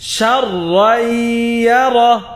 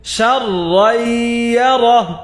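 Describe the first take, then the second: Both takes have the same delivery.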